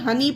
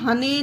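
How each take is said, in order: First: The word ends with an 'ee' sound. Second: The word ends with an 'ay' sound. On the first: The speaker calls it right. "हम इसे यहाँ पर हनी पढ़ते हैं" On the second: The speaker calls it wrong. "हने नहीं पढ़ते हैं"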